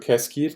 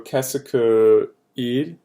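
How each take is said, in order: First: The vowel of 'que' is dropped before 'il'. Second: The vowel of 'que' is kept before 'il'. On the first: The speaker calls it right. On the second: The speaker calls it wrong.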